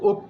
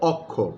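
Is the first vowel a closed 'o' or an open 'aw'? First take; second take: closed o; open aw. First: The first vowel is a closed 'o' sound. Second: The first vowel is an open 'aw' sound. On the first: This is how it is actually spoken. "বলছি কিন্তু" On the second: This is how it is written. "লিখছি কিন্তু"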